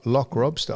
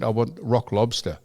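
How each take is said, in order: First: "lock lobster" said as "lock robster"; L and R transposed. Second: Said in the usual way. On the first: Retold or imitated. He repeats her words back, "lock lobster" as "lock robster". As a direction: hesitantly echo "lock lobster" with L and R swapped. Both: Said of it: "they, they transpose".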